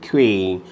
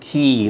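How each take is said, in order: First: The word is said like 'kway'. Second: The word is said like 'key'. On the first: The speaker calls it wrong. "not Quay. People mispronounce Quay" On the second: The speaker calls it right. "That word is pronounced as Key"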